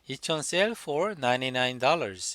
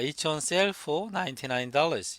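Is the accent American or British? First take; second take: American; British. First: It is said in an American accent. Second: It is said in a British accent. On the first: "미국 사람이면 ... 이렇게 했겠죠" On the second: "영국 사람이니까"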